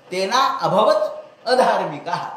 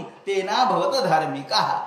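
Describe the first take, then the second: First: "तेना अभवत अधार्मिकाः" slowly, each word separated with its initial अ sounded; split sandhi. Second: "तेना भवत धार्मिकाः" recited slowly with the words run together; joined sandhi. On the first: तोच चरण संधी सोडवून. (संथ, संधी सोडवून "तेना अभवत अधार्मिकाः") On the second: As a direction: say "तेना भवत धार्मिकाः" as joined verse, the initial अ sounds merged. श्लोकातील संधी आधी जोडून. (संथ, संधी जोडून "तेना भवत धार्मिकाः") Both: Shown as a demonstration.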